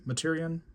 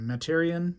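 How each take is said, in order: First: Materion said muh-TEER-ee-un, first syllable reduced to muh, stress on TEER; trying Materion again with the weight moved onto TEER; second-syllable stress. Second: Materion said MAT-eer-ee-un, stress on the first syllable MAT; trying Materion with a short flat MAT up front, the TEER unstressed. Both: Real, not acted. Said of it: "I don't know how to say it".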